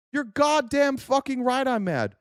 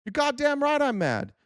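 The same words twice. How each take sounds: First: High, slow, every word weighted with anger; madder still. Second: Mad. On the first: Answering a chatter, slower and angrier than before. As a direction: lean harder into the anger on goddamn. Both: Real, not acted.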